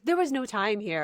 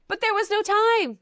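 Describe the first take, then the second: First: Said in the usual way. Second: High, loud mock-indignant cry; exclaimed protest. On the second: Host defending the wedding-day comment, loudly protesting. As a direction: burst out in exaggerated defence.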